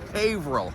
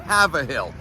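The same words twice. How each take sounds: First: It is said like 'hayvrill'. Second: It is said like 'have a hill'. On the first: The speaker calls it right. "It's Haverhill. Correct spelling, H A Y V R I L L" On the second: The speaker calls it wrong. "It's not Haverhill. Who wants to have a hill?"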